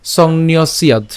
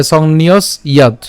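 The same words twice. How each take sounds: First: "সংন্যস্যাদ" run together, s gliding into ya; joined pronunciation. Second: "সংন্যস ইয়াদ" as two parts, break after s; split pronunciation. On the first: Teacher shows "সংন্যস্যাদ" said together, joined up. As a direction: link "সংন্যস্যাদ" with no break before ya. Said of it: "একসাথে উচ্চারণ করলে". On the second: Teacher splits "সংন্যস ইয়াদ" for learners, two separate parts. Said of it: "হসন্ত পর্যন্ত উচ্চারণ করব". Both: Shown as a demonstration.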